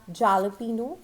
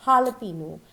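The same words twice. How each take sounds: First: Jalapeno starting with an English j; wrong pronunciation. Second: Jalapeno starting with an h; correct pronunciation. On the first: Teacher showing what it is never called, mispronounced. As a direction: say jalapeno as "ja-la-PEE-no". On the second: Teacher introducing the next word, correct pronunciation. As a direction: say jalapeno as ha-la-PEE-no. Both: Shown as a demonstration. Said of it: "It is never called as".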